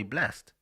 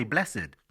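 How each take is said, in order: First: "blessed" said as one syllable, blest; "blessed" rhyming with rest. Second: "blessed" said in two syllables, bless-id. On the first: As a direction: end "blessed" on a crisp -st, no extra syllable. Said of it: "sometimes I just say". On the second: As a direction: sound out the -ed in "blessed". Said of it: "some people say "blessed". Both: Shown as a demonstration.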